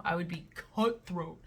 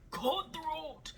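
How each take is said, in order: First: Said in the usual way. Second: "Cutthroat" echoed much higher and soft; "Cutthroat" said high, breathy and pointed; dramatic echo. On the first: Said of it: "cutthroat repeated". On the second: Real, not acted. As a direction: savor the word.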